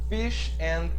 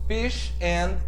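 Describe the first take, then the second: The two takes are said the same way.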